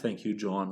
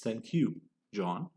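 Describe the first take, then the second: First: The words run together without a pause. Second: There is a short pause before the name. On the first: The speaker calls it wrong. "It's not thank you, John, without a comma" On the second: The speaker calls it right. "You see how we're pausing"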